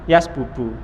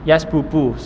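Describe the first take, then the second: Both takes have the same delivery.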